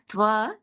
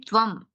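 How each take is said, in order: First: The word ends on a plain vowel. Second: The word ends with a nasal hum. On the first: The speaker calls it wrong. "not Tva" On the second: The speaker calls it right. "It should be Tvam"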